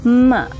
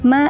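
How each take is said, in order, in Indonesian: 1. Bunyi m dibuat dengan bibir dilipat terlalu ke dalam. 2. Bunyi m dibuat dengan bibir tertutup secara normal. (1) "Jadi kayak terlalu dalam gitu" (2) "Padahal cukup"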